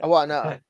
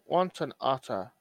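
First: The t is dropped, so otter sounds like R. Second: The t in otter is clearly pronounced. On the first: "what I take out is the T's" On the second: "he's saying it properly now"

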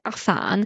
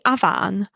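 First: The name is said the English way. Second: The name is said the Welsh way. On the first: The speaker calls it wrong. "I've always said Afan" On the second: The speaker calls it right. "That's like the Welsh way of saying it"

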